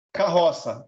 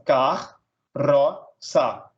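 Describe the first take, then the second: First: Said in the usual way. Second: "car", "ro", "sa" as three separate beats; split into syllables. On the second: Shown as a demonstration. Teacher dividing carroça for students, "car, ro, sa" syllable by syllable. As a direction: pause after each of "car", "ro", "sa". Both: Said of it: "separar um em cada sílaba".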